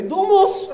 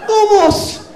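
First: High European Portuguese impression, not shouted; comic European Portuguese, pitched up; mock European Portuguese. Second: High, louder European Portuguese impression; emphatic comic European Portuguese, pitched right up; insistent mock European Portuguese. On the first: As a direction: answer evasively in a put-on Portugal accent. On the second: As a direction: insist in a put-on Portugal accent. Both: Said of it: "só entende se falar assim".

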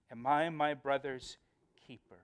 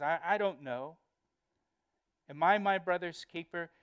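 First: Said in the usual way. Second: Mildly insolent acted comeback; defiant. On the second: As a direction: throw the question back with insolence. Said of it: "tone of defiance".

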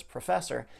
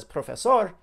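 First: "professor" with a reduced pruh and an er ending; "professor" the English way; English pronunciation. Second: "profesor" with a round o and a full sor; "profesor" the Spanish way; Spanish pronunciation. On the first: Contrasting the versions again, English sounds. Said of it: "if he says". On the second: Contrasting the versions again, Spanish sounds. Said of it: "but if he says". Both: Shown as a demonstration.

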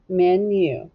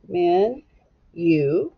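First: Said in the usual way. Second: "Men, you." split by a clear pause; syllable by syllable. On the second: Shown as a demonstration. Teacher scooping the syllables for boys and girls, "Men, you." in two separate beats. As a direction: say "Men," then wait, then "you.". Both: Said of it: "Just go ahead and scoop it".

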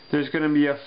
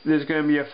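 The two takes are said the same way.

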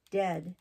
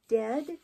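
First: Said in the usual way. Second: Shocked question. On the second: Acted. Jane shocked at the news.

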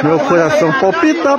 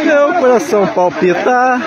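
First: Said in the usual way. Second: Higher, laughing through it; laughing in delight; giddy laughing. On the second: Real, not acted.

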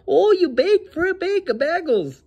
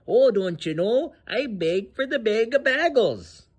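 First: Much higher, hammed-up Minnesota accent; mock the campers in an over-the-top Minnesota accent. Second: Lightly voiced Minnesota accent, slow and drawn out; mock Minnesota accent. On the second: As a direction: tease a Minnesotan begging for bagels in a Minnesota accent. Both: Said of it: "That's literally how people in Minnesota talk".

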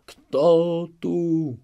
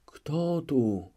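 First: Higher, louder terrified cry; startled shout. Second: Half-awake repeat. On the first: Chmielnicki wakes in terror, startled shout. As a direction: jolt awake and shout in fright. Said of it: "zakrzyknął". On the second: Chmielnicki half-awake repeats, fading fear. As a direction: repeat it as the fright subsides. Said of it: "powtórzył na wpół rozbudzony". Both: Acted.

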